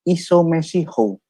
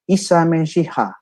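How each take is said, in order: First: Both words end with an 'o' vowel. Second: Both words end with an 'a' vowel. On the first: This is the western dialect form. "Kalau dia menggunakan dialek barat" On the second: This is the eastern dialect form. "kalau menggunakan dialek timur"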